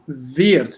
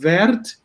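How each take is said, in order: First: The vowel is closed, as in Schnee. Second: The vowel is open. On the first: The speaker calls it right. "it's wert, like close, eh, like in uh, Schnee" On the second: The speaker calls it wrong. "You have not wert"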